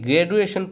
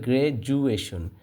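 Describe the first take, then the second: First: The middle consonant is a plain D sound. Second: The middle consonant is a J sound. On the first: The speaker calls it wrong. "এটাকে গ্র্যাজুয়েশন পড়লে কিন্তু হবে না" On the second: The speaker calls it right. "এটা হবে গ্র্যাজুয়েশন"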